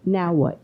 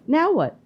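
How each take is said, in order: First: Said in the usual way. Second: "Now what?" pushed much higher, with weight on "Now"; emphatic repeat. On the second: Real, not acted. Host pressing his guest about Putin, an emphatic higher repeat. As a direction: hit "Now what?" harder and higher the second time.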